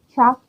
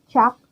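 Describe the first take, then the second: The two takes are said the same way.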